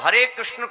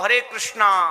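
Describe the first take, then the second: First: The last word ends without a final vowel. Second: The last word ends with a long 'aa' vowel. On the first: The speaker calls it right. "हरे कृष्ण को" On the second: The speaker calls it wrong. "हरे कृष्णा, ... नहीं बोला जाता है"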